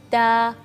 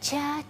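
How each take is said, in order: First: The syllable starts with a thin t sound. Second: The syllable starts with a ch sound. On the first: The speaker calls it right. "ta tipis ya" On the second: The speaker calls it wrong. "ada suara seperti uh, c"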